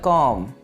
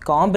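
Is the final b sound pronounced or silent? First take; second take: silent; pronounced. First: The b sound at the end is silent. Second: A b sound is pronounced at the end. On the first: The speaker calls it right. "बी क्या है, silent है" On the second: The speaker calls it wrong. "कॉम्ब नहीं है"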